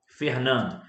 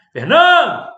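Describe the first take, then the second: First: Said in the usual way. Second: Loud, high shout of a name; gritão. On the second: Shown as a demonstration. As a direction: call out FERNANDO at full voice, stressed syllable stretched. (gritão bem forte e agudo) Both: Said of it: "dá um gritão".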